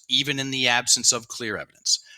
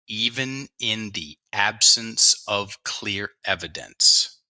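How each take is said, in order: First: It is read at a faster pace. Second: It is read at a slower pace.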